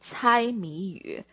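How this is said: The phrase is pronounced in Mandarin Chinese. "如果我们在普通话里面，我们会说这个字叫猜谜语"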